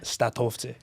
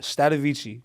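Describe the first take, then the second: First: The name is pronounced the Albanian way. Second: The name is pronounced the English way. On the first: "which is the Albanian way" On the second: "which is like the English way"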